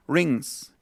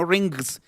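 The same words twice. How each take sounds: First: "rings" slow, ending on the ng with no g; right rings. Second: "rings" with a hard g at the end, rin-gs; "rings" with the g sounded out; wrong rings. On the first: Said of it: "sino rings". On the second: Teacher shows students the mistake: "rings" with a hard g. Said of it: "no rings". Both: Shown as a demonstration.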